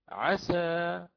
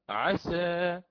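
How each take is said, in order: First: The final vowel is a fully open a. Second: The final vowel is slightly tilted toward e. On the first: "بوجه الفتح" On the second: "هكذا بالتقليل"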